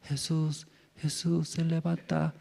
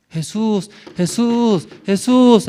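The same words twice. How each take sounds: First: Soft, murmured call that wakes no one; too soft a wake-up call. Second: Rising loud calls, each louder and higher; calling Jesus awake. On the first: Shown as a demonstration. Preacher demos a weak call to wake Jesus, soft. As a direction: call him gently, far too quietly. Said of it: "¿Así ya usted levanta?". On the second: Pretend. Disciples calling the sleeping Jesus in the storm, shouting. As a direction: shout him awake, building. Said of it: "tiene que gritar".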